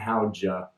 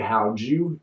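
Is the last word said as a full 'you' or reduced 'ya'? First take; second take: reduced 'ya'; full 'you'. First: The last word is reduced to 'ya'. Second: The last word is a full 'you'. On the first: "Americans say how'd you and how'd ya" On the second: "Americans say how'd you and how'd ya"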